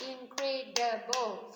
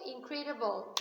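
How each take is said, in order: First: "incredible" slowly in four separate beats; syllable by syllable. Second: Said in the usual way. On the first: Shown as a demonstration. Teacher counting syllables for the class, "incredible" broken syllable by syllable. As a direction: clap out "incredible", each syllable stressed alike. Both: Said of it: "can you clap with me".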